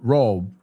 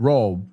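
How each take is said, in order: First: The vowel is short and rounded. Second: The vowel is short and rounded.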